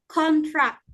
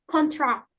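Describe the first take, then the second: First: "contract" with the first syllable stressed. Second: "contract" with the second syllable stressed. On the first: Student presenter showing the noun to the class, "contract" stressed up front. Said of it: "stress on the first". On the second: Student presenter showing the verb to the class, "contract" stressed at the end. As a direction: lean on the last syllable of "contract". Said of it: "stress on the second syllable". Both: Shown as a demonstration.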